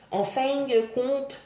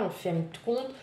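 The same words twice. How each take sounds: First: Clumsy Québécois accent, higher and slow; Quebec accent. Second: Said in the usual way. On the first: Shown as a demonstration. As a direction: try a Quebec accent, drawn out. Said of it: "emmêlée entre, euh, le Québec et la France". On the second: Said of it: "je suis une piètre imitatrice".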